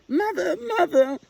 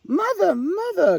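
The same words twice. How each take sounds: First: Very high, loud tearful calling; a chick crying after a mother out of reach; sobbing call. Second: Very high, loud calling out to mother; an owlet calling happily after her mother; eager cry. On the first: Little Owl falling behind her mother, high tearful call. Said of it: "sobbed Little Owl". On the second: Little Owl chasing her mother across the glade, high eager call. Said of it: "cried Little Owl". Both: A narrator's reading.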